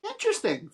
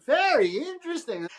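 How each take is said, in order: First: Said in the usual way. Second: Mock intrigue. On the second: Bride teases the photographer, pitching "very interesting" high. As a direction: go way up on "very interesting", playfully amazed. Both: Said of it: "she's like".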